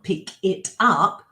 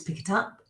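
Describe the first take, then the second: First: The three words are said separately, not linked. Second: The three words run together as one word. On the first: The speaker calls it wrong. "It's not" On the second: The speaker calls it right. "it becomes one word because native speakers link everything together"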